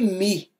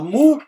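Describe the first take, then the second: First: The vowel is a spread ee. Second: The vowel is a back rounded oo. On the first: "e nem mi" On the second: "você não fala mu"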